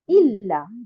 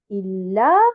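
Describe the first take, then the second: First: The stress is on the first syllable. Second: The stress is on the second syllable. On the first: The speaker calls it wrong. "et non pas illa" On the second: The speaker calls it right. "on dit illa"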